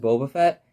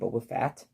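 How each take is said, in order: First: The last word has the vowel of 'bet'. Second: The last word has the vowel of 'bat'. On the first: The speaker calls it right. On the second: The speaker calls it wrong.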